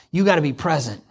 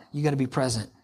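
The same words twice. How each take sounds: First: Said in the usual way. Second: Softer echo, leaning on gotta; quiet repeat. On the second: Shown as a demonstration. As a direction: repeat it softly, gotta stressed, letting it sink in.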